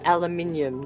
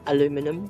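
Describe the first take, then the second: First: The word is said as five-syllable aluminium. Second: The word is said as four-syllable aluminum. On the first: This is the form the speaker's own group uses. "We call it aluminium" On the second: This is the form the speaker's group does not use. "not aluminum"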